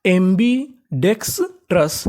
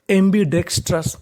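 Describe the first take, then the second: First: एम्बीडेक्सट्रस drawn out slowly, syllable by syllable; slow blended word. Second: Said in the usual way. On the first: Shown as a demonstration. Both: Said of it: "अब जोड़ के पढ़ते हैं".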